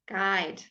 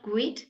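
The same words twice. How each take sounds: First: The u is silent after the g. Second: The u is sounded after the g. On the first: The speaker calls it right. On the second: The speaker calls it wrong.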